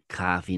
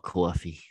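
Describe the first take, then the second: First: The O vowel is plain and not drawn out. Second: The O vowel is emphasized and drawn out. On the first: This is how the local speakers say it. The speaker calls it right. "We don't emphasize the O's" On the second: This is how speakers from elsewhere say it. The speaker calls it wrong. "not coffee"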